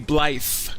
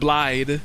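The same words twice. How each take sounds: First: The name ends with a TH sound. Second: The name ends with a D sound. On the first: "it sounds like they pronounce it with a T H"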